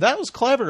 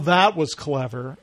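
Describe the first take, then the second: First: It sounds sincere and genuinely impressed. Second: It sounds grudging and sarcastic. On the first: The joke is truly appreciated. "instead of saying" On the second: The joke is not really appreciated. "I say... Oh, that was clever. You know, like that"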